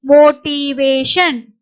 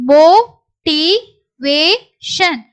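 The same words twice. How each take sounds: First: Said in the usual way. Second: Slow syllables with clear gaps. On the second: Shown as a demonstration. Teacher sounds out the word for learners, syllable by syllable. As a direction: break "motivation" into four separate beats.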